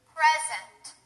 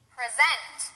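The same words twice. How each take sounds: First: The stress is on the first syllable. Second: The stress is on the second syllable. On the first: It is used as a noun. "The first one will be stressed on the first syllable, that's the noun" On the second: It is used as a verb. "The second one will be stressed on the second syllable, that's the verb"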